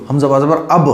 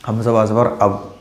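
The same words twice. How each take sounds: First: अब with the lips striking and springing open on ब; tight qalqala bounce. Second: अब read soft and smooth with the ब closed silently; smooth, no bounce. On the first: Teacher shows students the tight bounced reading of अब. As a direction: bounce the ब of अब like a small knock. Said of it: "थोड़ा सा tight है, जैसे कि टक्कर मारी गई हो". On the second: Teacher shows students the smooth reading of अब, no bounce. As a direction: let the ब in अब just stop, no release. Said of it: "silent एकदम". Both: Shown as a demonstration.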